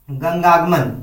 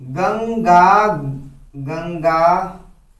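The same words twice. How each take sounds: First: Said in the usual way. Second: गंगागमन drawn out very slowly, syllable by syllable; slowly spelled out. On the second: Shown as a demonstration. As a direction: stretch out गंगागमन slowly for the class. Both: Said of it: "मान लो दे देंगे कि".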